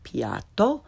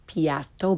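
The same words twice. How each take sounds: First: "piatto" with open ah, rising; correct Italian pronunciation. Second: "piatto" slowly, with English short a; learner's mispronunciation. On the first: Teacher corrects beginners, "piatto" with Italian ah. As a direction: say "piatto" as PYAHT-to. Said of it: "follow it with the correct pronunciation". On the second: Teacher shows beginners' mistake, "piatto" with English short a. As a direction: say "piatto" with at as in cat. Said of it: "first the way most people". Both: Shown as a demonstration.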